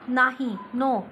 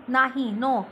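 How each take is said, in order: The two takes are said the same way.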